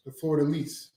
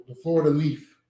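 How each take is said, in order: First: "lease" said clearly, ending in a crisp s; correcting himself: Florida "lease", with a plain s; setting the record straight, "lease" with a clean s. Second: "lease" comes out as "leaf", final s heard as f; slurred "leaf" where "lease" is meant; country accent turns "lease" into "leaf"; sounds like leaf. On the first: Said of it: "That's what I said". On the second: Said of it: "It sounded like you said Florida leaf". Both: Real, not acted.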